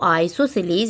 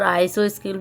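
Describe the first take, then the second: First: The word ends with a long 'seleez' sound. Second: The word ends with a short 'skel' sound. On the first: This is the correct pronunciation. The speaker calls it right. "Correct जो pronunciation है इसका वो आइसोसिलीज होता है" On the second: This is how people commonly say it. The speaker calls it wrong. "हम mostly यहाँ पर आइसो स्किल बोले बोलते आ रहे हैं"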